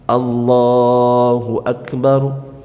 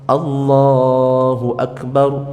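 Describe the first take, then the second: Both takes have the same delivery.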